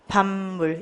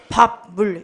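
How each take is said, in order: First: The first syllable ends in an m sound. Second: The first syllable ends in a p sound. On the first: The speaker calls it right. "이렇게 발음을 하죠" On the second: The speaker calls it wrong. "이렇게 발음하지 않죠?"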